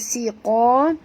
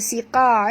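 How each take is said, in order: First: The q sound is heavy and thick. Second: The q sound is light and thin. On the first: The speaker calls it right. "Qa ni tebal, tapi baca siqa" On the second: The speaker calls it wrong. "jangan baca siqa"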